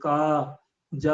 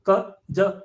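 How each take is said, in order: First: Each syllable ends with a full long 'aa' vowel. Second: Each syllable is clipped without the 'aa' vowel. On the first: The speaker calls it right. "आ निकलना चाहिए last में" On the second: The speaker calls it wrong. "ऐसे नहीं बोलना है"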